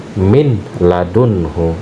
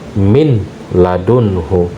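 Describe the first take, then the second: The two takes are said the same way.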